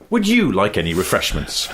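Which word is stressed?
you. The stress falls on the word "you". "moving the emphasis down the sentence"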